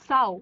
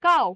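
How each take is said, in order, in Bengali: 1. শব্দটি একটি নরম S ধ্বনি দিয়ে শুরু হয়। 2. শব্দটি একটি শক্ত K ধ্বনি দিয়ে শুরু হয়। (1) "it is not সাউ" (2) "it is কাউ"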